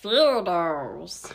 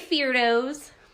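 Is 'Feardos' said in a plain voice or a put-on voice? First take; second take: put-on; plain. First: It is said in a special put-on voice. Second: It is said in an ordinary, plain voice.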